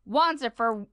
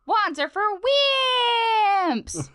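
First: Said in the usual way. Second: High, loud boyish cartoon hero shout; Finn. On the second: Shown as a demonstration. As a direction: belt it high, drawing out the last word. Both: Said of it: "I gotta say it in Finn voice".

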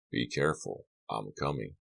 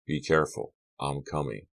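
First: Low, soft voice dropping away on the last words; a quiet echo of his brother's warning from the phone; remembered phone voice. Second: Said in the usual way. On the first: Retold or imitated. Carrie recalling brother Donald's phone warning, hushed and low. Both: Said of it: "Donald's voice on the phone came back to him".

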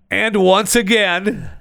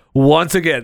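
First: High, slow and stretched; drawn-out announcer. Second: Said in the usual way. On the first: Acted. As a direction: stretch it out like a showman. Drawn-out emphatic opener.

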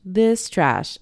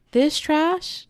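First: Flat dismissal. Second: Higher, louder scoff at this trash; mock disgust. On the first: Retold or imitated. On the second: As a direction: sneer it like a snob. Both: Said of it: "And I'm like".

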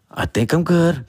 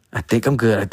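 First: Hopeful check. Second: Said in the usual way. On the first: Retold or imitated. Hopeful morning self-check.

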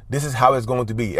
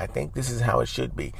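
First: No doubt, no room to argue; firm, certain. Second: Softer, unsure, trailing off; hesitant. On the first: Teaching co-parents the firm tone, certain. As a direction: state it flat out as fact. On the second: Showing the weak tone not to use, quiet and unsure. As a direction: hedge it quietly, no conviction. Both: Shown as a demonstration. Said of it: "as opposed to".

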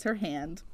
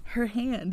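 First: Said in the usual way. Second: Her hand with Her punched high; stress on Her. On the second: Shown as a demonstration. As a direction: hit the word Her in Her hand. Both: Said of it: "you get it?".

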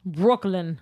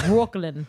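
First: Said in the usual way. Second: Short New York Brooklyn twang; Brooklyn accent. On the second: Pretend. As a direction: say it like a Brooklyn local. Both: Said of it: "is that your Brooklyn accent".

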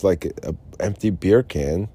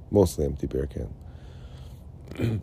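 First: Said in the usual way. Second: Mostly drawn out, slow and quieter; stress on mostly. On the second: Real, not acted. Correcting himself about the beer can, slow stress on "mostly". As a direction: lean slowly on "mostly".

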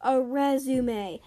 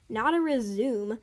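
First: Resume said slowly as "REZ-oo-may"; correct pronunciation. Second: Resume said as two-syllable "rih-ZOOM"; contrasted wrong word. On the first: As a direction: correct someone, saying "resume" in three syllables ending "may". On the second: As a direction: say "resume" like the verb, ending in "zoom". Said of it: "A resume basically means the opposite". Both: Acted.

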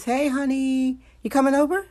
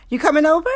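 First: High, cooing animal voice. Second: High, loud squeaky animal voice; animal voice, louder. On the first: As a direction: coax it like a pet talking back. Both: Pretend. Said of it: "Here's my animal voice".

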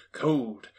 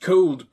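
First: Said in the usual way. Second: "Cold" punched loud and higher; "Cold" said with a louder, brighter hit; emphatic repeat. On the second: A narrator's reading. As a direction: bite into "Cold" loudly.

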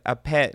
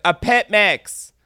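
First: Said in the usual way. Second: Louder and slower for a deaf ear. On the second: Retold or imitated. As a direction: spell it out loud, slowly. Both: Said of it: "And I was like".

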